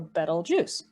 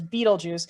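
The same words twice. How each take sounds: First: The first syllable sounds like the word 'bet'. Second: The first syllable does not sound like 'bet'. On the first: The speaker calls it right. "So like the word bet. So bet L" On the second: The speaker calls it wrong. "many people mispronounce it as Betelgeuse"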